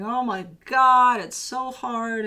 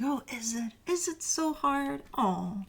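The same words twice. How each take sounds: First: Slow, drawn-out mock whine; whining. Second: Slow mock-sympathetic tease, higher on "so hard"; sarcastic. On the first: A client complaining their task is hard, slow mock whine. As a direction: stretch it out like a sulky complaint. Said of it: "Stop whining". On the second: The universe mocking a client who calls the task hard, sarcastic. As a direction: pretend to pity them, dripping sarcasm. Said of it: "with this kinda sarcastic".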